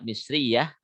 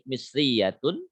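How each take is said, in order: First: The word ends with a soft h sound. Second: The word ends with a full -tun syllable.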